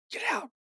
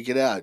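First: Hushed, much higher mimicked voice; imitated ghost reply. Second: Said in the usual way. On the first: Investigator relaying the spirit's answer, in a hushed ghostly voice. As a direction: softly mimic a disembodied voice.

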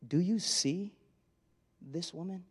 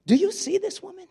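First: Much softer and lower, you leaned on, rising on woman; quiet, searching question. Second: High, sharp question with weight on you; pointed question. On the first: Jesus asking Simon again, low and hushed. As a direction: drop low and soft, almost to yourself. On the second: Jesus challenging Simon, high and pointed. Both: Shown as a demonstration. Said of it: "I wonder if that was literal".

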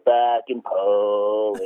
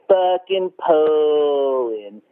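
First: Slow, lower, drawn-out mock sneer; coworkers mimicking the boss. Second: Very slow, drawn-out sneer on the name; mock boss voice. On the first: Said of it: "the voice". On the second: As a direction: stretch every syllable with contempt. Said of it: "he'd say my name like that".

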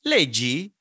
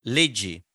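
First: "leggi" lifted into a rising question tune; "leggi" with a rising Italian question tune. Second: "Leggi" said low with a falling tune, a statement; "Leggi" with a falling Italian statement tune. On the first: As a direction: ask it, sing it up. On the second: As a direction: tell it, let it drop. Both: Shown as a demonstration. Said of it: "you can hear the, the inflection".

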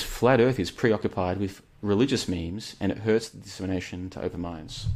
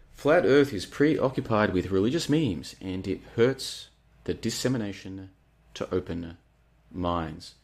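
First: Said in the usual way. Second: Slow, emphatic, with pauses before "open" and "minds"; deliberate re-reading. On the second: Real, not acted. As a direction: punch "Flat Earth", then space out "to open... minds".

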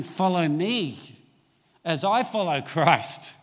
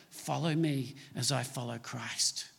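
First: Loud and slow, every word weighted; "Follow me as I follow Christ" drawn out slow and louder, each word leaned on; slow, emphatic quote. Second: Quiet and lower, gently spoken; "Follow me as I follow Christ" said softly, low and intimate, almost under the breath; soft, hushed quote. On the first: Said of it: "But now he's saying". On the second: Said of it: "he says to the church". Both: Retold or imitated.

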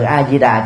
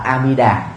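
First: A Di Đà said with "zi" in the middle; old Vietnamese reading. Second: A Di Đà said as "a-mi-da"; corrected reading. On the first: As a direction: pronounce A Di Đà as "a-zi-da". (A Di Đà đọc với âm "di") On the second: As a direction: put "mi" in the middle of A Di Đà. (A Di Đà đọc thành "A Mi Đà") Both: Shown as a demonstration. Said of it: "Hòa thượng Trí Tịnh đã sửa lại".

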